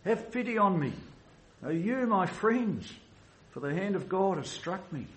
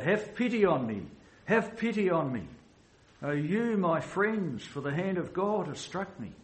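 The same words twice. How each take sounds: First: Desperate cry. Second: A touch higher, lifted plea to friends; pleading cry. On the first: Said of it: "you feel something of the desperation of Job's cry". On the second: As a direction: voice Job's cry without full force. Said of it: "he cried out". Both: Retold or imitated.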